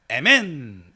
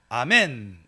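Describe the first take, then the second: First: The first vowel is 'eh', as in eh-men. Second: The first vowel is 'ah', as in ah-men. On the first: "스페인어로도 에멘 이러고 있고요" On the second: "우리 한국어로는 아멘 지금 이러잖아요"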